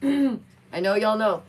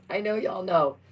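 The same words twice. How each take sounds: First: Slow, louder and higher "I know y'all know"; slow, punched "I know y'all know"; emphatic repeat. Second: Said in the usual way. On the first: Shown as a demonstration. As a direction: lean hard on "I know y'all know". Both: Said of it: "repeated with emphasis".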